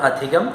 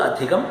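The two takes are said the same way.

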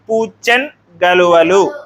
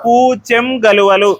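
First: The first word ends in a half nasal. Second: The first word ends in an m sound. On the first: "అరసున్న వచ్చినప్పుడు అన్ అనేటువంటి శబ్దం వస్తుంది" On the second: "సున్నా వస్తుంది"

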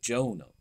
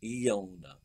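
First: The name begins with a hard J sound. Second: The name begins with a soft Y-like sound. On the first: This is the modern pronunciation. "as we would pronounce it anyway" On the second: This is the original pronunciation. "the J of Jonah would have been pronounced softly"

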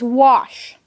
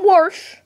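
First: The word has no R sound in it. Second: The word has an R sound after the vowel. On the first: The speaker calls it right. "it is wash. There never has been and never will be an R in the word wash" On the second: The speaker calls it wrong. "It's not Warsh"

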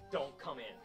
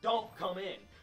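First: It is said in a calm tone. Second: It is said in an angry tone.

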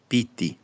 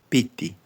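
Both takes have the same delivery.

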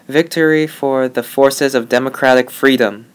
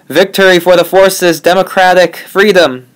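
First: It is said at a moderate, quiet volume. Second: It is shouted loudly and uncontrollably.

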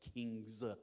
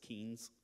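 First: The word is said with the g sound. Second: The word is said without the g sound. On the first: The speaker calls it right. "it's Kings" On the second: The speaker calls it wrong. "He doesn't pronounce the G"

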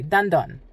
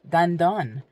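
First: It is said quickly at natural speed. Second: It is said slowly and carefully.

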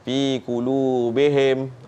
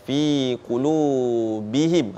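First: The i-vowel in the ending is slanted, unclear. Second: The i-vowel in the ending is pronounced clearly. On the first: The speaker calls it wrong. "dia serong lah bunyi itu" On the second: The speaker calls it right. "menjelaskan baris bawah"

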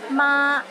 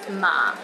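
First: The syllable is said in the first tone. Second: The syllable is said in the low fourth tone. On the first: It means mother. "ma in the first tone means mother" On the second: It means linen. "ma in the fourth tone means linen"

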